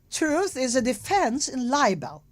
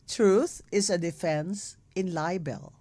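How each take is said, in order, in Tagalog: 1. Sinabi ito sa pekeng American accent. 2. Sinabi ito sa sariling accent ng nagsasalita. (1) "Bigyan ba natin ng American accent para kay Erwin Tulfo?" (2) "Ulitin sa English"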